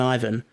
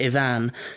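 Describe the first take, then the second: First: The name is said with an ordinary, plain pronunciation. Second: The name is said with an exotic, foreign pronunciation.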